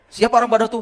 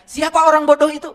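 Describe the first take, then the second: First: Raised, louder teasing question; loud challenge. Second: Much higher, louder replay of the challenge; loud question. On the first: Real, not acted. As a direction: fling the question at the crowd. Preacher quizzes audience loudly. (pertanyaan menantang yang lantang) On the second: Retold or imitated. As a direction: shout the question again at the crowd. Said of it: "Ketika saya tanya". (mengulang pertanyaan dengan lantang)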